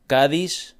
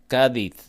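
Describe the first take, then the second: First: It is said without the Spain pronunciation. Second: It is said the way people in Spain say it.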